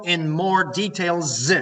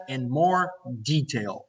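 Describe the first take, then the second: First: Details with a long buzzing final s; stressed final s. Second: Slow "detail" with no final s; correct singular detail. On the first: Teacher flags a wrong plural to students, final s exaggerated. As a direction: drag out the s ending of "details". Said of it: "There's no in more details". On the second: Teacher models the correct phrase, slow and without s. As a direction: say "detail" deliberately, ending cleanly on l. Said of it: "such an expression in more detail simply does not exist". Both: Shown as a demonstration.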